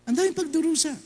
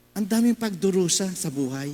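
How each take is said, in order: First: Daming lifted much higher, stressed; emphatic repeat. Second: Said in the usual way. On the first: Shown as a demonstration. Priest echoing the suffering to the crowd, daming pitched high.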